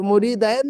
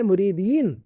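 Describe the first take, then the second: First: मुरीदैन with "-dain" at the end; the misreading मुरीदैन, ending "-dain"; wrong vowel. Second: मुरीदीन with "-deen" at the end; corrected मुरीदीन, ending "-deen"; correct vowel. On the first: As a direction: say मुरीदैन with an ai diphthong. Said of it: "मुरीदैन नहीं है वो लफ्ज". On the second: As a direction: say मुरीदीन with a long ee before n. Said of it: "क्या है?". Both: Shown as a demonstration.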